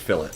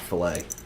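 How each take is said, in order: First: The word sounds like 'fill it'. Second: The word does not sound like 'fill it'. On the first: The speaker calls it right. "the consensus is fill it" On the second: The speaker calls it wrong. "not fillet"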